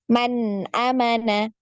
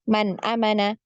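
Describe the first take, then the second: First: The n sound in man is held and flowing. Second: The n sound in man is cut short. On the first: The speaker calls it right. "harus dialirkan" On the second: The speaker calls it wrong. "jangan juga cuman man amana"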